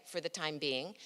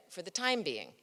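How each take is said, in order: First: Idiom reading, "for the time BEING"; stress on BEING. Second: "for the TIME being", being falls away; stress on TIME. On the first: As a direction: let the weight land on being. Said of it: "sometimes reading it one way". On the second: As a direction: put the weight on time. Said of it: "and sometimes the other". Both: Shown as a demonstration.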